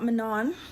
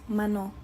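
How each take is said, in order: First: The name ends with an N sound. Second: The name ends with a vowel sound. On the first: The speaker calls it wrong. "But it's not Manon" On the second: The speaker calls it right. "It's just Mano. Just don't say that N at the end"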